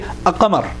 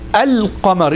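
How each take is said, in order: First: The l sound is quick or dropped. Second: The l sound is clear and held long. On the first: The speaker calls it wrong. "You don't say A-Qamar or Al-Qamar. You don't, you don't make it quick" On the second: The speaker calls it right. "So you want to make sure this lam is clear"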